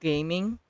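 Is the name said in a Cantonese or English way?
English. The name is read in an English way. The speaker calls it wrong. "there's this guy named Gaming"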